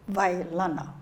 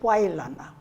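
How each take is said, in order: First: The name begins with a V sound. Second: The name begins with a W sound. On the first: This is how many people on Kauai say it. "the W has a strong V sound" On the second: This is how people elsewhere say it. "It's Wailana to them"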